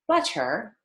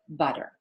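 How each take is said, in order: First: The middle T is a crisp, clear T. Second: The middle T is a very light D. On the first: The speaker calls it wrong. "So I don't say butter" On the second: The speaker calls it right. "I say butter"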